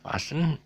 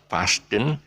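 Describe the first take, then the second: First: No T sound is pronounced in the middle. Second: A T sound is pronounced in the middle. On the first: The speaker calls it right. "no T" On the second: The speaker calls it wrong. "not fasten"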